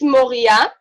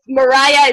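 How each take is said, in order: First: The name is said with Hebrew pronunciation. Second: The name is said with American English pronunciation. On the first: "So in Hebrew, it's Moria" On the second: "if Mariah is easier for you, that's also totally fine"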